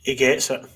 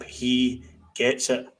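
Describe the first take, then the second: First: Said in the usual way. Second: Slow, weighted summing-up; slow emphatic repeat. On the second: Shown as a demonstration. Pundit summing up Lundstrom, slow and emphatic. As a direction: lay each word down slowly.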